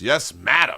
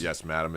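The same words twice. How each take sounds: First: It is said excitedly, as an exclamation. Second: It is said flatly, without exclamation. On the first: The speaker calls it right. "There's an exclamation point. You got to say it like that" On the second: The speaker calls it wrong. "It's not"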